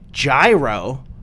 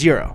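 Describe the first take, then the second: First: The word does not sound like 'euro'. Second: The word sounds like 'euro'. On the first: The speaker calls it wrong. "I say gyro" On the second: The speaker calls it right. "he says it more like hero or euro"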